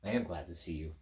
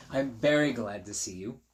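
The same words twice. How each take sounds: First: "am" leaned on, said lower and softer; stress on am. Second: "very" lifted with a rise at the end; stress on very. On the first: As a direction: say "am" with weight, softly. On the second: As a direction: lean into "very" and lift the end. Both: Shown as a demonstration.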